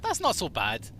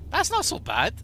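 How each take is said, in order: First: Said in the usual way. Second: Higher, louder playful repeat; higher mock take. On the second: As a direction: say it again, pitched way up in character. Repeats line in character voice.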